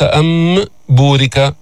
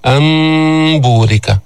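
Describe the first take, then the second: First: "أم بورك" with a pronounced m, cut off before b; over-clear meem. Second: "أن بورك" slowly, noon turned into a long hummed, hidden m; correct iqlab. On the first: Teacher showing the mistake, "أم بورك" with fully exposed m. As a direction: press the m out separately: amm, būrika. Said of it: "ليست مظهرة". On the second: Teacher demonstrating iqlab, "أن بورك" with long hidden m. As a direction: hold a nasal m gliding into b: ammm-būrika. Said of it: "قلبنا النون ميما عند الباء وأخفيناها". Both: Shown as a demonstration.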